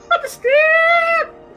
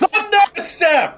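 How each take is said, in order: First: It is said in a loud hair metal voice. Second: It is said in a plain, normal voice.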